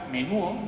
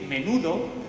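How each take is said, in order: First: The d between the final vowels is dropped. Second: The d between the final vowels is pronounced.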